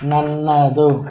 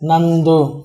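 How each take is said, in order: First: The word is said in its full form. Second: The word is said in a shortened form. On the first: This is the standard form. "இது ப்ராப்பரானது" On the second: This is the casual spoken form. "பேச்சு வழக்கில் அதை short பண்ணிட்டே போயிடுவாங்க"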